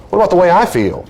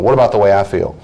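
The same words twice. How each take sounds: First: High, aggrieved plea; mock-wounded objection; acted protest. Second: Said in the usual way. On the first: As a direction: protest as the discounted partner, pitched up. Acted hurt partner protesting.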